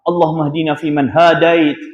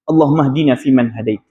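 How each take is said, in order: First: The 'ha' sound is drawn out long. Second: The 'ha' sound is kept short. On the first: The speaker calls it wrong. "jangan doa macam tu" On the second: The speaker calls it right. "Pendek je"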